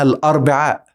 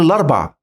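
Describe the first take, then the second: First: The word ends with a long vowel and glottal stop. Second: The word ends without the long vowel and glottal stop. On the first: "في حاجة اسمها الأربعاء" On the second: "نقول الأربع"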